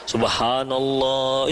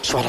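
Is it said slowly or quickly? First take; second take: slowly; quickly. First: It is drawn out slowly and melodically. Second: It is clipped and said very quickly.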